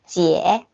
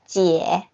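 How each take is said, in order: Both takes have the same delivery.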